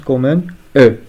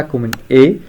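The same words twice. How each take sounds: First: E said as a schwa, French "eu". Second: E said as a clear French é, "ay". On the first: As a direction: say E as a neutral "uh". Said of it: "se prononce comme un E". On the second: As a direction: say E as a full "ay" vowel. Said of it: "le E ne se prononce pas". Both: Shown as a demonstration.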